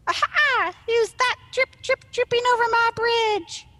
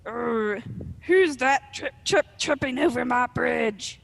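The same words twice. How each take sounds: First: High, loud, squeaky troll challenge. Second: Loud, growling troll challenge; gravelly troll growl. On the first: Small troll challenges whoever crosses the bridge, high squeaky voice. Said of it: "a higher, squeakier one". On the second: Arg the troll challenges whoever crosses his bridge, gravelly growl. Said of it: "about to growl in his gravelly troll voice". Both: Acted.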